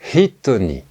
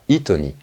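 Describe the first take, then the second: First: It starts with a breathy h sound. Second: It starts straight on the vowel, no h. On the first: The speaker calls it right. "Le H est un H expiré" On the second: The speaker calls it wrong. "et non pas"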